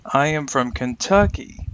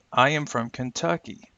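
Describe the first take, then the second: First: "Kentucky" punched louder on its middle syllable; focus word stressed. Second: "Kentucky" stressed without extra punch, falling at the end; measured model sentence, even weight up to "Kentucky"; stressed content words. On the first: Teacher showing learners the focus word, strong stress on "Kentucky". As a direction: lean hard on "Kentucky" as the key word. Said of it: "let's try with a focus word". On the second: Teacher giving learners a line to repeat, content words stressed evenly. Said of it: "start with the stressed content words". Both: Shown as a demonstration.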